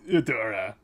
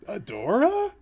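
First: It sounds disgusted, like Shadow Weaver. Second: It sounds like a puzzled question.

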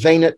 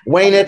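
First: It is said with Catholic Latin pronunciation. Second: It is said with classical Latin pronunciation. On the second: "venit in classical Latin"

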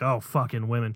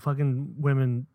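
First: It sounds dismissive and exasperated. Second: It sounds strong and admiring.

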